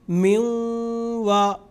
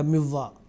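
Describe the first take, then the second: First: A nasal sound is held for two or three seconds. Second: The n merges into w without nasal sound. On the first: The speaker calls it right. "दो से तीन सेकंड नाक से गुन्ना की आवाज़ हम निकालेंगे" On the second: The speaker calls it wrong. "तो ये गलत हो जाएगा मिव्वा"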